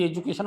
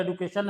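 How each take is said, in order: First: एजुकेशन, j in the second syllable; everyday pronunciation. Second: एडुकेशन, du in place of ju; taught pronunciation. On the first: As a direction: say एजुकेशन with a j sound. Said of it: "हम लोग बोलते हैं". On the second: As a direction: say एडुकेशन with a hard d. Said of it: "लेकिन होता है एडुकेशन". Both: Shown as a demonstration.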